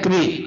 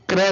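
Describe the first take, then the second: First: The syllable ends in a long ee vowel. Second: The syllable lacks the long ee vowel. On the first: The speaker calls it right. "क्री लगनी चाहिए" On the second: The speaker calls it wrong. "नहीं"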